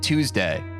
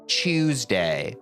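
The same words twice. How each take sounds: First: It begins with a clear t sound. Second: It begins with a ch sound, like chew. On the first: "we actually say it Tuesday. ... we say like the t, t, the dental t" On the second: "as British people say chew ... like a choo-choo train"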